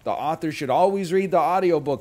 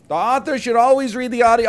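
First: The sentence is said at normal volume. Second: The sentence is said noticeably louder.

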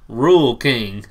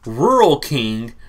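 First: The phrase is pronounced in a casual slangy way. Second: The phrase is pronounced carefully and fully. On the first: The speaker calls it wrong. "my slang afterwards" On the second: The speaker calls it right. "the correct enunciation"

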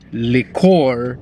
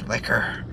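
First: It is said with a fancy French-like pronunciation. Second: It is said with the plain everyday pronunciation. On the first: The shop is being treated as posh. The speaker calls it right. "You have to say liqueur because you gotta be fancy" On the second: The shop is being treated as ordinary. The speaker calls it wrong. "She's like, it's liquor"

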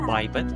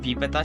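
First: The first syllable sounds like 'bye'. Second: The first syllable sounds like 'bee'.

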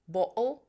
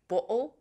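No difference in how they are said.

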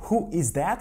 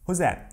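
First: The word 'is' is said as a full word. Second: The word 'is' is contracted onto 'who'. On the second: "в реальной жизни как"

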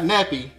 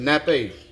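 First: The word ends in an 'ee' sound. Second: The word ends in an 'ay' sound. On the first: The speaker calls it wrong. "Not nappy" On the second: The speaker calls it right. "but nappe"

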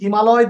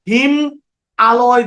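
First: The word is said smoothly as one unit. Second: The word is split with a break between parts. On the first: The speaker calls it right. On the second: The speaker calls it wrong.

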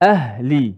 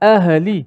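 First: The h is released softly with breath. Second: The h ends with a short bouncing echo. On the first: The speaker calls it right. "lepaskan suara dan nafas" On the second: The speaker calls it wrong. "jangan ahli"

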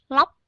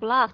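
First: It is said Vietnamese-style with the mouth closing. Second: It is said with an English-like final k. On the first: The speaker calls it wrong. "các bạn Việt Nam hay đọc như thế này" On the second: The speaker calls it right. "chúng ta sẽ không có cái vấn đề đó"

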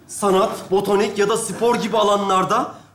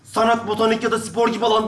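First: The phrase is read slowly. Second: The phrase is read quickly.

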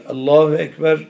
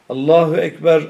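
The two takes are said the same way.

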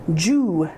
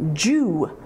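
First: The syllable begins with a J sound. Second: The syllable begins with a J sound.

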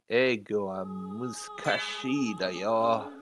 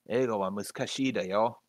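First: It is said with a heavy foreign accent. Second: It is said without a heavy foreign accent.

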